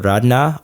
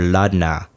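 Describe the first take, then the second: First: The name begins with an R sound. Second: The name begins with an L sound. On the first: "I guess there's two pronunciations" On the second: "I guess there's two pronunciations"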